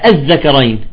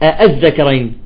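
No difference in how they are said.

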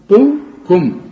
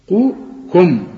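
Both takes have the same delivery.

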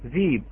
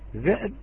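First: A long ee vowel replaces the glottal stop. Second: A glottal stop closes the first syllable.

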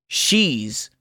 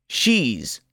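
No difference in how they are said.

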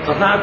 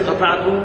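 First: The verb ends with a -tu sound. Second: The verb ends with an -at sound. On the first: The speaker herself outpaced the riders. "يبقى أنا الذي قطعت وأنا على أتاني" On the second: The donkey outpaced the riders. "وقطعت هي يعني الأتان بالركب"

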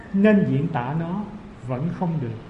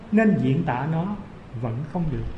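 The two takes are said the same way.

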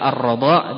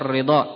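First: The first vowel after r is a. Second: The first vowel after r is i. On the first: "Bisa dibaca ar-radha'" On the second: "bisa dibaca ar-ridha'"

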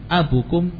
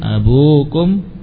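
First: The word is said without the long u vowel. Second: The word is said with the long u vowel. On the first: The speaker calls it wrong. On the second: The speaker calls it right. "Yang betul abukum"

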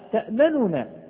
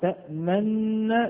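First: The two n sounds are pronounced separately. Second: The two n sounds merge into one doubled n. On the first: This is the word's original underlying form. "كان أصلها تأمننا" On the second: This is how the word is actually recited. "فصارت تأمننا بالإدغام مع الإشمام"

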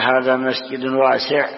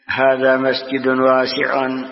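First: The last word ends on a silent consonant. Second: The last word ends with a vowel sound. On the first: The speaker calls it right. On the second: The speaker calls it wrong.

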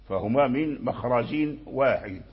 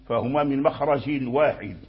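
The two takes are said the same way.

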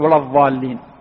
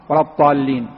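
First: The word begins with an emphatic dh sound. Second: The word begins with an emphatic t sound. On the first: "ينبغي أن يقرأ بحرف الضاء" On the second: "لا يقرأها بالطاء"

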